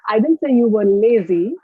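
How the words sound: The word lazy carries the main stress. "I will focus on the word lazy and give you a demonstration"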